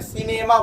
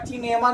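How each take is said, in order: First: The word begins with an s sound. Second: The word begins with a ch sound. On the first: The speaker calls it right. "सिनेमा बोलते हैं" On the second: The speaker calls it wrong. "किनेमा या चिनेमा नहीं बोलते हैं"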